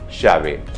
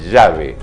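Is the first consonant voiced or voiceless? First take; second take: voiceless; voiced. First: The first consonant is a voiceless sh sound. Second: The first consonant is a voiced zh-like sound. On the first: The speaker calls it wrong. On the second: The speaker calls it right. "con sonido de la garganta"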